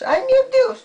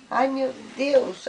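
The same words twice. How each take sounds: First: High, loud mock dismay for the child. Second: Said in the usual way. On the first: Shown as a demonstration. Grandma showing the child how to exclaim, high and loud. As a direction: cry it out high like a game.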